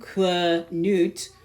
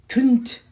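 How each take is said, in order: First: The word is said slowly and drawn out. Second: The word is said quickly as one syllable. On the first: "You slow it down" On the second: "it's spoken so fast that it comes out as, as a one syllable word"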